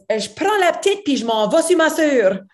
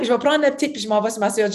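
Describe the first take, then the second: First: Put-on Je prends la petite said higher and clipped like the girl; la petite in the girl's very French way; girl's French phrasing. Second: Said in the usual way. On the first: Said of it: "where she goes". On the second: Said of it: "Like, I'm".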